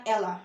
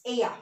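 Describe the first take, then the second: First: "Ella" said with a plain English L, EL-la; wrong L sound. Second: "ella" corrected to EH-ya; double L as Y. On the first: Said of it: "It's not Ella". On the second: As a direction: say "ella" with a Y sound in place of the L. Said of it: "double L is Y". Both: Shown as a demonstration.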